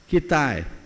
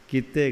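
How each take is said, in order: First: The word ends in a long nasal 'aain' sound. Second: The word ends in a short plain 'e' sound. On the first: This is how people in a neighbouring district say it. "Tikamgarh वाले बैठे हैं बोलेंगे किताएं" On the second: This is how people in one district say it. "ये सागर में लोग बोलेंगे किते"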